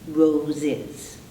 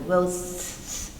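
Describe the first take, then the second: First: The ending adds an extra syllable. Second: The word ends in a hissing s sound. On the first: The speaker calls it right. "that's why we add this syllable is" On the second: The speaker calls it wrong. "we can't say it as an air S. It's unpronounceable"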